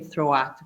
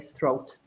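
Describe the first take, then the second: First: The vowel glides like a diphthong. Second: The vowel is plain, not a diphthong. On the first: The speaker calls it wrong. "we don't pronounce it like a diphthong. We don't say throat" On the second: The speaker calls it right. "We just say throat"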